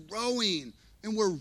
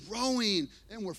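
The two takes are said the same way.

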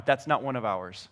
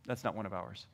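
First: Said in the usual way. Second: Very low, soft repeat; muttered aside. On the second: Acted. Parent to spouse at the playground, muttered aside. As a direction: let it drop away under the breath.

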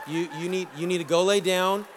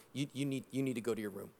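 First: Said in the usual way. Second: Low, hushed wife's command; a hint of a stern wife, lower and softer; quiet retold order. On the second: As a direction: tell him quietly to go to his room.

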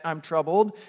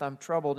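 First: Casual shrug, little rising lift on troubled; trivial complaint. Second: Grave distress. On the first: Preacher mocking a petty complaint, lightly breezy. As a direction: toss off "I'm troubled." like a minor annoyance. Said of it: "This isn't just". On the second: Preacher voicing Jesus facing death, heavy and grave. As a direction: lower and softer, falling on troubled. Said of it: "This is". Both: Shown as a demonstration.

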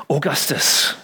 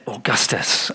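First: Augustus whispered with awe. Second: Said in the usual way. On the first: Shown as a demonstration. Preacher savouring the emperor's name, whispered. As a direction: breathe Augustus grandly. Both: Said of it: "Sounds big, doesn't it?".

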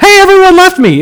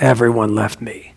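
First: High, quick, breezy announcement; mock cheerful. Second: Low, subdued lament, much softer; sad. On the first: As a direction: chirp it as if it were happy news, hammed-up. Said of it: "that wasn't like". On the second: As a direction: say it dejectedly, sinking low and quiet. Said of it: "it always sounded sad". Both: Shown as a demonstration.

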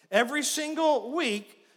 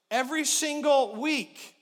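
No difference in how they are said.

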